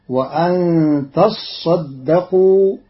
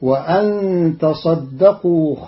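First: تصدقوا said "tassaddaqoo", saad held double; doubled saad. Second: Said in the usual way. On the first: Shown as a demonstration. Teacher shows Qalun's reading, تصدقوا with doubled saad. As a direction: lean on the saad of تصدقوا, slowly. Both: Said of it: "بتشديد الصاد".

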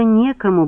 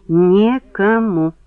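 First: Said in the usual way. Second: Slow, spaced-out "Некому"; emphatic repeat. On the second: Acted. Woman insisting nobody else could, slow emphatic "Некому".

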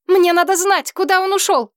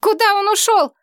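First: High frantic demand; desperate shout. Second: High frantic cry; desperate shout. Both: A narrator's reading. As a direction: shout it up in despair. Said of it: "в отчаянии крикнула".

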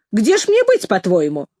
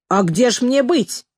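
First: Indignant appeal. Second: Slow retort, falling at the end; measured rhetorical question with a falling close; matter-of-fact retort. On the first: Repeats it, appealing to commanders. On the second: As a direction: answer as if it were obvious, drawing it out. Headmistress answers pupil's question. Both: A narrator's reading.

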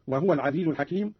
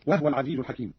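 First: Said in the usual way. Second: وهو said "wahwa", not "wahuwa"; silent-vowel ha. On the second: Shown as a demonstration. Teacher demonstrating Qalun's reading, وهو shortened to "wahwa". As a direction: drop the u after the h in وهو. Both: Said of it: "قرأ قالون بإسكان الهاء أيضًا".

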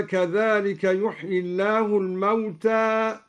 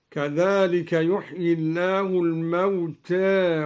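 First: Said in the usual way. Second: Final alef of الموتى tilted lightly toward "e"; al-Duri's taqlil. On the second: Shown as a demonstration. Teacher showing al-Duri's reading, الموتى ending in a softened "eh". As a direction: say الموتى with a half-inclined last vowel, between a and e. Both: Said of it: "قلل الدوري ألف الموتى هكذا".

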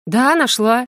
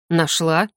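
First: Higher, affronted "да, нашла" with prominent ДА; defiant answer. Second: Lower, restrained male question on НАШЛА; man's curt question. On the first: Heroine to the doubting general, defiant answer. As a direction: retort in a woman's piqued voice. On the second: General questioning the woman about water, curt question. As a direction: ask "нашла" coolly, pitched down. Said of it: "спросил мужчина". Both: A narrator's reading.

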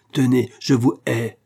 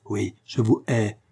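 First: Slow, loud and higher, spitting out hatred; wife declares hatred to husband, slow and loud; hoarse hatred. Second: Slow bitter repeat. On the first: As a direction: let each word of hate land slowly. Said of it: "d'une voix rauque". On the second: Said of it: "le flot débordant d'invectives". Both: A narrator's reading.

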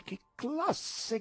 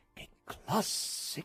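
First: Much higher, delighted call; enraptured cry. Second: Breathless, awed whisper of delight; hushed rapture; enraptured hush. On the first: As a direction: cry it out in rapture. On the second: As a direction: gasp it out in wonder. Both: A narrator's reading. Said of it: "gridavano rapiti".

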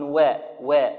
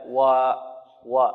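First: و bent toward an i sound; overthin waw. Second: و light but not bent; moderate light waw. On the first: Retold or imitated. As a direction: imitate the student who overthins و. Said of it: "بعض طلبة القرآن يقولون". (ترقيق مبالغ للواو خطأ) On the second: Shown as a demonstration. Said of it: "هكذا". (ترقيق معتدل للواو)

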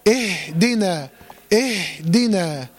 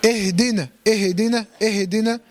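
First: Very slow اهدنا, long breath on "ihhh-dina"; flowing still ha. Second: اهدنا said quickly "ihi-dina"; wrongly voweled ha. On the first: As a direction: let breath run through the ha of اهدنا before "dina". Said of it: "وتديله زمن الهمس والرخاوة". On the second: Teacher shows how they move the letter, extra vowel in اهدنا. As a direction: put a short vowel after the ha in اهدنا. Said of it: "بيحركها". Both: Shown as a demonstration.

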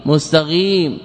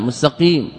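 First: مستقيم said with a ghain, mustaghim; faulty mustaghim with gh; ghain for qaf. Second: مستقيم said with a clean qaf, mustaqim; proper qaf. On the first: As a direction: swap the qaf in مستقيم for a gh sound. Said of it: "أبدل حرفا بحرف". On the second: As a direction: correct mustaqim. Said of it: "غين". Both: Shown as a demonstration.

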